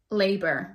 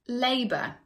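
First: It ends with a clear R sound. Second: It ends in a schwa without an R. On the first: "in American English, ... we do keep the R sound" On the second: "we use it a lot in British English"

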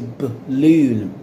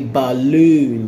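First: The unstressed vowel is a weak schwa. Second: The unstressed vowel is a full vowel. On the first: The speaker calls it right. "but you're going to say balloon" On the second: The speaker calls it wrong. "You're not going to say balloon"

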